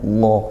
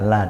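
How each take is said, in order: First: The L and vowel are thick and heavy. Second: The L and vowel are thin and light. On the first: The speaker calls it wrong. "bukan yang lo seperti itu" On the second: The speaker calls it right. "la tipis"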